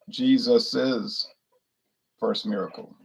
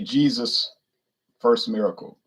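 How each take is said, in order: First: Jesus is said with an extra 'iz' syllable. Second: Jesus is said without an extra 'iz' syllable. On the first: The speaker calls it right. "the proper way to say it would be" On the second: The speaker calls it wrong. "Like they'll say"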